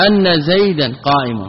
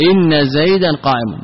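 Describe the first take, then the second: First: أن said as "anna" with an open a; أن pronounced anna, open first vowel; with fatha. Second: إن said as "inna" with an i vowel; إن pronounced inna, kasra on the hamza. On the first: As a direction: start with "anna", not "inna". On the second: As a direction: switch to "inna" with a clear i. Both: Shown as a demonstration.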